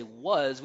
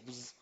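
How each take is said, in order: First: WAS with a full, open vowel; unreduced, fully pronounced "was". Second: WAS squashed to a quick "wz"; unstressed, swallowed "was"; reduced vowel. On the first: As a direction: give "was" its whole stressed vowel. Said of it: "we wouldn't say was". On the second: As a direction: say "was" with almost no vowel, softly tucked away. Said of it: "we would say was". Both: Shown as a demonstration.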